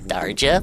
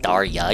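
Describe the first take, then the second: First: The middle consonant is a J sound. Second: The middle consonant is a Y sound. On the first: The speaker calls it wrong. "I call her Darja" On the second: The speaker calls it right. "it's actually like Darya. You're supposed to pronounce the J like a Y"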